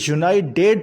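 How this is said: The t before the ending is said like a d. "American accent में इसे यूनाइटेड पढ़ेंगे, यानी डी का साउंड पढ़ेंगे"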